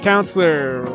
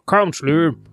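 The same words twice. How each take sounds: First: It is said in the speaker's normal voice. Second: It is said in a put-on judge voice. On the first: The speaker calls it wrong. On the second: The speaker calls it right.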